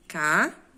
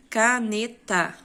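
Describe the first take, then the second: First: Said in the usual way. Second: "caneta" said slowly as "ca-ne-ta", louder; syllables split. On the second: Shown as a demonstration. Teacher shows the pupils three syllables. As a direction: break "caneta" into three slow beats. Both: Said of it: "que são três sílabas".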